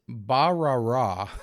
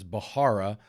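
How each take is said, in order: First: The middle consonant sounds like an r. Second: The middle consonant sounds like an h. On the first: This is how the speaker believes it is said. The speaker calls it right. "but I believe it's Barara" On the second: This is how other people commonly say it. The speaker calls it wrong. "I hear people pronounce this all the time as Bahara"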